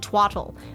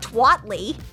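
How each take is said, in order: First: The word ends with an 'ul' sound. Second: The word ends with a 'lee' sound. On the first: The speaker calls it right. "see the L-E, which is the ol" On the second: The speaker calls it wrong. "it's not twatly"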